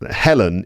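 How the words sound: The name is said with English pronunciation. "is how I would say that in English"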